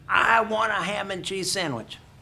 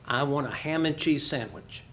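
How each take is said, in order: First: The sentence is said even more loudly. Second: The sentence is said fairly loudly. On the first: She hopes volume will make her understood. "what you do is you talk louder" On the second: She is placing an ordinary order. "she said rather loudly"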